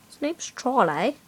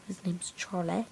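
First: Said in the usual way. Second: Hushed whisper about his dog. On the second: Real, not acted. Kid whispering the dog's name to viewers. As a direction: say the name under your breath. Repeats line, first whispered.

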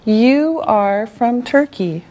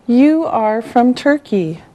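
Both takes have the same delivery.

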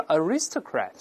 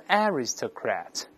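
First: "aristocrat" stressed on RIS, uh-RIS-tuh-krat; American "aristocrat", weak first vowel, stress moved back; American second-syllable stress. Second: "aristocrat" stressed on the first syllable, ARR-is-tuh-krat; British "aristocrat", open stressed "a" up front. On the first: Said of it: "美国人都是aristocrat". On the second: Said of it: "英国人都是aristocrat". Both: Shown as a demonstration.

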